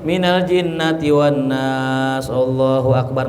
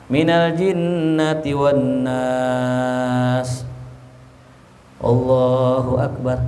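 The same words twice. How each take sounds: First: The phrases run on with no pause between. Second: A short pause comes before 'Allahu akbar'. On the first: The speaker calls it wrong. "nggak langsung ... nggak sunnah tuh" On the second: The speaker calls it right.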